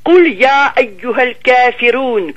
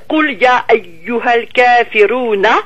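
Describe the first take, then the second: First: The final vowel at the end is dropped. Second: The final vowel at the end is pronounced. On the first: "comme si on ne mettait pas la voyelle de la fin" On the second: "au lieu de dire"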